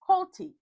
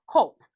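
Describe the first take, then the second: First: The name ends with an added 'ee' sound. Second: The name ends on a plain 't' sound. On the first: The name is said with a cutesy added ending. "her randomly adding on E to things" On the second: The name is said in its normal form. "you know how to say his name"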